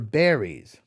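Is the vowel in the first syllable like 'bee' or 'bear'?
bear. The first vowel sounds like 'e' in 'bed'.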